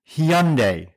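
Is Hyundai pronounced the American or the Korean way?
Korean. The name has a Korean pronunciation. "in the Korean language and the spelling in Hangul, it is properly pronounced Hyundai"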